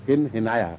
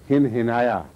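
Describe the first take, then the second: No difference in how they are said.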